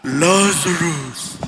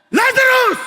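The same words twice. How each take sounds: First: "Lazarus." drawn out very low and slow; a deep, heavenly voice calling "Lazarus."; booming archangel. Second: A loud, high call of "Lazarus!"; shout. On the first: The archangel calling the dead from heaven, deep and slow. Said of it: "imagine yung lakas na yun, archangel". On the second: Jesus calling Lazarus from the grave, shouting. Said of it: "Sumigaw eh". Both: Retold or imitated.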